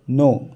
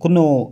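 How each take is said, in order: First: No k sound is pronounced before the n. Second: A k sound is pronounced before the n. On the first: The speaker calls it right. "के silent आहे, त्याचा उच्चार येत नाही" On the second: The speaker calls it wrong. "नाहीतर तुम्ही कुनो कुनो असं करायचं नाही"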